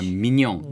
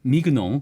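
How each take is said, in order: First: The g is silent, blending into a 'ny' sound. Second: The g and n are pronounced as separate sounds. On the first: The speaker calls it right. "이렇게 발음을 또 묵음 이렇게 살짝 뒤로 넘어가는 리에종으로 해줘야 된다" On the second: The speaker calls it wrong. "이렇게 발음하면 안 된다"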